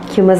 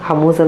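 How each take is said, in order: First: The first syllable sounds like 'hue'. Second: The first syllable sounds like 'hum'. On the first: The speaker calls it right. "ഹ്യൂമസ് എന്നാണ് ശരിക്കും pronounce ചെയ്യേണ്ടത്" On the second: The speaker calls it wrong. "ഹമൂസ് എന്നല്ല"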